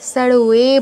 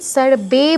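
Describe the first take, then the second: First: The second syllable starts with a w sound. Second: The second syllable starts with a b sound. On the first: The speaker calls it right. "Sir ওয়ে বলতে হবে" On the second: The speaker calls it wrong. "এখানে sir বে বলা যাবে না"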